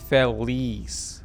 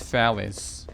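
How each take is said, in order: First: The name is said like 'Felice'. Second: The name is said like 'Phallus'. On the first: The speaker calls it right. "somebody told me to pronounce it Felice" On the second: The speaker calls it wrong. "not Phallus"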